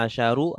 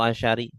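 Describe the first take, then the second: First: The word ends in a u vowel. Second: The word ends in an i vowel. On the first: "tidak ahada asyaru" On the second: "atau asyari"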